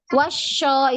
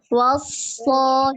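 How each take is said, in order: First: The consonant is a soft hushing sh. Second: The consonant is a firm hissing s. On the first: The speaker calls it wrong. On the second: The speaker calls it right.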